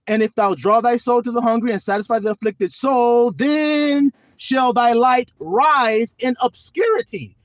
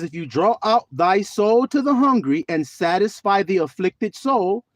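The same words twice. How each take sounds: First: High, loud and slow, each word driven home; preached scripture. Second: Said in the usual way. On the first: Shown as a demonstration. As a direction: proclaim the verse like thunder from the pulpit. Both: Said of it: "there it is again".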